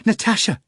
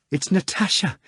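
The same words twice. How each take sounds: First: Even higher and louder, falling shout of Natasha; second louder falling call of Natasha; exclaiming. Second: Much higher, rising eager cry; first high rising call of Natasha; exclaiming. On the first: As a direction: land the name hard, thrilled. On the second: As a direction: call out her name in delight. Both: A narrator's reading. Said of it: "Margarita exclaimed".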